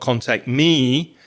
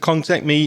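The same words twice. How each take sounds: First: The word 'me' is said with strong stress. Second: The word 'me' is said without stress. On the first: The speaker calls it wrong. "not contact me. So I wouldn't put that extra stress on me" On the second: The speaker calls it right. "I would also say"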